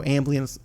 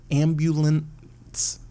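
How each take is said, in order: First: "ambulance" slurred as "amb-lee-ance"; slurred slip. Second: "ambulance" slowly as "am-byu-lents"; careful correction. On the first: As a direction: swallow the middle of "ambulance" into "amblee-ance". Stumbles on word, corrects it. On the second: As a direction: stretch out every syllable of "ambulance", with the "byu" clear. Corrects the fumbled word. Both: Real, not acted.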